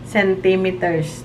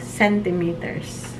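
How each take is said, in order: First: It is said the Filipino way. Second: It is said the way locals abroad say it. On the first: This is how it is said back home. "Diba sa atin?" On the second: This is how it is said in the new country.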